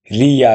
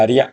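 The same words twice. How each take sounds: First: "রিয়া" drawn out as two beats, ri-ya; syllables apart. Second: "রিয়া" merged into one short beat, rya; blended syllable. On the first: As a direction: stretch "রিয়া" into separate ri and ya. ("রিয়া" ভেঙে টেনে, রি-ইয়া) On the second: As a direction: say "রিয়া" quickly joined as rya. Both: Shown as a demonstration. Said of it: "আসবো যুক্ত বর্ণে".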